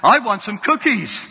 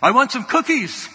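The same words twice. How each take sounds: First: Put-on child asking again, a touch louder; a little louder. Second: Lightly voiced four-year-old, higher and whiny; little boy wanting cookies. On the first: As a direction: push the same cookie demand slightly harder. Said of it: "with a little louder voice". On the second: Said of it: "I heard him say".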